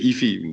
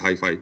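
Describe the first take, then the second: First: The word has a French pronunciation. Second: The word has an English pronunciation. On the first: "in French, we say hifi" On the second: "we don't say hi-fi"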